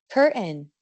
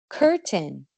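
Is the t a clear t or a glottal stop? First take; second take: glottal stop; clear t. First: The t is replaced by a throat closure. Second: The t is pronounced clearly. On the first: The speech is informal. "cuando estamos hablando informalmente" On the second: The speech is formal. "con una pronunciación más formal"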